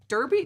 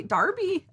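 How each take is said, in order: First: "Derby" with an er sound, rising, higher; questioning DUR-bee. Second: "Derby" as DAR-bee, pitched high; Darby pronunciation. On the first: Host checks the place name "Derby", asking it as DUR-bee. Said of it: "I would have definitely pronounced it". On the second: Host tries viewers' way of saying "Derby", a high DAR-bee. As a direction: try "Derby" with an ar sound, much higher. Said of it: "Pronounced Derby". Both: Shown as a demonstration.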